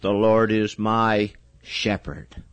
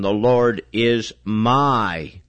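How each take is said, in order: First: The stress is on shepherd. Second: The stress is on my.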